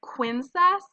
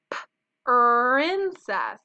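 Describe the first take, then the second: First: "quincess" with a kw sound starting princess, higher and louder; wrong beginning sound. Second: "princess" with a split-off p and held r, loud; stretched beginning sound. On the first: Teacher tests the wrong blend for kindergartners, qu substituted. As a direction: swap the opening pr for qu in "quincess". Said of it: "which together says qu". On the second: Teacher shows kindergartners the right blend, drawn-out pr. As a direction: pop the "p", then stretch the r into "princess". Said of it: "listening for that beginning sound". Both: Shown as a demonstration.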